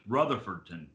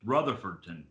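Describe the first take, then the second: First: The name is said in full. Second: The name is said in full.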